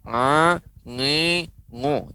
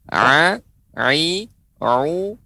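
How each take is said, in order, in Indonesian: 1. Suku katanya dikeluarkan lewat hidung. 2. Suku katanya berasal dari tenggorokan, bukan hidung. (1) "nggak menggunakan hidung. ... Tidak" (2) "pengucapan memang dengan tenggorokan"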